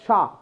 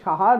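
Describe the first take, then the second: First: It starts with sh and has one syllable. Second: It starts with s and has two syllables. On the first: The speaker calls it right. "It's কজ শাহ" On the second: The speaker calls it wrong. "সাহা বলছি আমরা বাঙালি, সাহা না"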